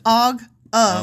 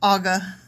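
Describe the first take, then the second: First: The two words are said clearly apart. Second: The words run together into one word. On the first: The speaker calls it right. "It's Og of" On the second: The speaker calls it wrong. "You always say Aga Bashan, like Aga"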